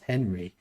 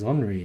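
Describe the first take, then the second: First: The name is said the English way, with H. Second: The name is said the French way, silent H. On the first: This is how the dubbers mispronounced the name. The speaker calls it wrong. "not Henry" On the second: This is how the footballer's name is really said. The speaker calls it right. "his name's Henry"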